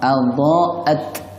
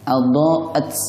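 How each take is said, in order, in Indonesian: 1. Huruf t terakhir berakhir bersih tanpa desis sama sekali. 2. Huruf t terakhir dilepas dengan bunyi s yang mendesis. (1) "Yang tepat ... tanpa ada bunyi sinnya" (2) "Contoh yang salah, ... ada bunyi sinnya"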